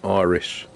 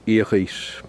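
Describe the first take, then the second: First: The word is said with English pronunciation. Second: The word is said with French pronunciation. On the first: "In English" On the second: "In French"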